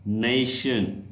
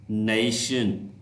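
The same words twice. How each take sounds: First: "नेशन" said clearly as "nay-shun"; model word. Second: "नेशन" repeated slowly as "nay-shun", with a falling end; corrected model word. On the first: Teacher modelling "नेशन" for students to repeat. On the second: Teacher repeating "नेशन" after correcting it. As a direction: say "नेशन" again, slow and careful, as "nay-shun". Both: Shown as a demonstration. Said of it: "ये नेशन नहीं है".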